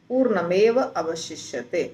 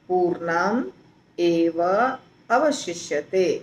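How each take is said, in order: First: The first words are run together without a break. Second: The words are said separately, one by one. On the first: "तीनों को जोड़ दिया गया" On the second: "तीन शब्द हैं"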